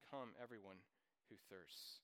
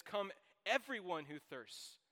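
First: Much softer and lower, almost to himself; soft echo. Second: Loud, slow, ringing call to everyone; proclaimed invitation. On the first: Preacher repeating the invitation to the congregation, soft and low. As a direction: let the verse settle in a hushed voice. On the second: Preacher reading the verse to the congregation, loud slow proclamation. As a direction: call out the verse to the whole room, slowly. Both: Acted.

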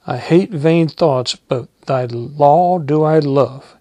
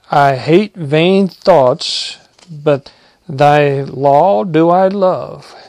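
First: Steady reading at normal pace; just read the verse through again; plain pulpit reading; scripture reading. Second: Each word drawn out slowly and louder; slow solemn proclamation; slow emphatic reading. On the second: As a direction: lay weight on every word of the verse. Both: Acted.

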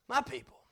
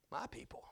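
First: Said in the usual way. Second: Hushed whisper; barely voiced whisper. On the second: Real, not acted. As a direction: breathe the words out. Whispered, then repeated in a plain voice.

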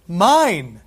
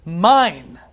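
First: Mine repeated loud and falling; echoed mine. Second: Mine rung out loud and final; proclaimed mine. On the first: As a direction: say it back with joy. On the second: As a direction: declare it like a possession. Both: Acted. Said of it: "present tense".

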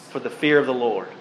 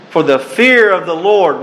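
First: Quiet echo of the verse; soft reflective repeat. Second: Fear stressed, raised and louder; proclaimed verse. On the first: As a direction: let it sink in quietly. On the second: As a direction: declare it to the crowd. Reads verse, then repeats it. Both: Acted.

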